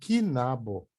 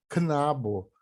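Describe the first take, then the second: First: A vowel is inserted between the k and n. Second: The k and n are joined without a vowel. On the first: The speaker calls it wrong. "falar kinabo, aí tá errado" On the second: The speaker calls it right. "muitas pessoas não sabem falar knabo"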